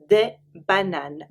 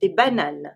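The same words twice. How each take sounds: First: "des bananes" stretched out slowly for learners; slow repeat. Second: "Des bananes" in French, nasal final vowel; French word. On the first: Teacher slowly repeating "des bananes" for learners. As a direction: drag out "des bananes" so they catch each sound. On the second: Teacher modelling "Des bananes" for learners. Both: Shown as a demonstration.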